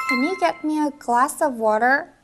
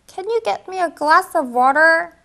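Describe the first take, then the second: First: Slow first take. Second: Slow second take. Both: Shown as a demonstration. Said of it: "둘을 살짝 붙여주면요".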